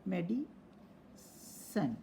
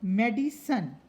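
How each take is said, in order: First: Soft, slow "मेडिसन", medi... san; teacher breaking "मेडिसन" apart quietly; syllable by syllable. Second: Said in the usual way. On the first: Shown as a demonstration. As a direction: pause inside "मेडिसन" before the final "san". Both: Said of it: "जितने syllable है".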